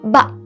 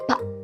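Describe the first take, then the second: First: It is said very loudly. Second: It is said very quietly.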